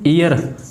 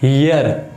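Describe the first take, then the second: First: The word begins directly with a vowel. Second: The word begins with an h sound. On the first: The speaker calls it right. "ई की आ रही है" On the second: The speaker calls it wrong. "हियर नहीं"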